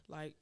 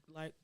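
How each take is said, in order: Both takes have the same delivery.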